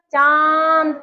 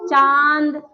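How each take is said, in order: First: "चांद" with a long nasalised आं; nose and mouth. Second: Said in the usual way. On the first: Shown as a demonstration. Teacher shows anunasik, vowel of "चांद" held in nose and mouth. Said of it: "नाक और मुंह दोनों में जोर पड़ेगा".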